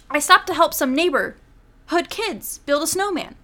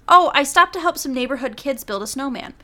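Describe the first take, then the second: First: Neighborhood kids is oddly stressed. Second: Neighborhood kids is said without special stress.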